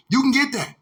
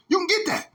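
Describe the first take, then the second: First: Said in the usual way. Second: "You can get that" jumps much higher; high incredulous take. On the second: Shown as a demonstration. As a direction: squeak "get" up high in disbelief.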